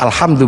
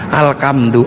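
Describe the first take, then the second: First: The middle consonant is an h sound. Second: The middle consonant is a k sound. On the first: This is the original Arabic form. "gak punya huruf ha" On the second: A speaker whose language lacks the h sound said it. "gak punya huruf ha, maka alhamdu menjadi alkam"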